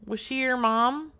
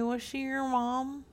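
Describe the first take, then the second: First: Higher-pitched, firmer repeat; speaking up. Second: Softer, higher-pitched gentle question; soft-spoken. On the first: Caller repeating the question after a huh, speaking up. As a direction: say it up so he catches it. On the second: Caller asking the bereaved man about Brenda, soft-spoken. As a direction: ask it delicately, volume held back. First ask, not heard. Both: Pretend.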